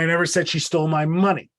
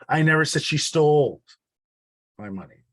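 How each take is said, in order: First: The word 'money' carries the main stress. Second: The word 'stole' carries the main stress. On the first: Something more than the money was taken. "it wasn't the money, it was my whole wallet that was stolen" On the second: It was given, not taken. "It wasn't stolen, it was given"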